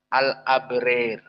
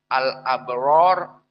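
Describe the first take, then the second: First: The long vowel before r sounds like e. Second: The long vowel before r sounds like a. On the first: This is Al-Kisai's reading. "ror dibaca rer" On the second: This is the majority reading. "Begitupun al-abror"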